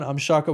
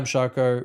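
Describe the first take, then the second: First: It is said with high, animated energy. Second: It is said with low, flat energy. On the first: The speaker calls it right. "boom, that's it. Exactly" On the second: The speaker calls it wrong. "He goes, more"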